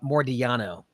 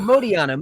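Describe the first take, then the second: First: An R sound follows the first vowel. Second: No R sound follows the first vowel. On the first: The speaker calls it wrong. "There's no extra R in there" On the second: The speaker calls it right. "just Modiano"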